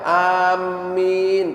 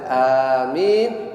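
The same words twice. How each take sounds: First: The m sound is doubled and held longer. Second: The m sound is single and light. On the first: It means I intend. The speaker calls it wrong. "membaca amin pakai tasdid" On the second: It means grant it, O God. The speaker calls it right. "dengan takhfif, dengan ringan, tanpa ada tasdid"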